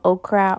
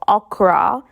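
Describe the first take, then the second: First: Okra is said with a standard English pronunciation. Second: Okra is said with the home-country pronunciation.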